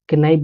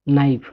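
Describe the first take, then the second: First: A k sound is heard before the n. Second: The word begins directly with the n sound. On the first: The speaker calls it wrong. "बहुत लोग के नाइफ बोल देते हैं गलती से" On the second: The speaker calls it right. "इसको नाइफ पढ़ना है, के साइलेंट रहता है"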